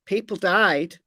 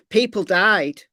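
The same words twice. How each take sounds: The two takes are said the same way.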